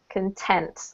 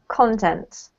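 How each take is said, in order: First: The stress is on the second syllable. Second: The stress is on the first syllable. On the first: It is the adjective meaning satisfied. "If you're using the adjective... then you emphasize the second" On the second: It is the noun meaning material or substance. "we're talking about the noun, right? and therefore we have to emphasize the first syllable"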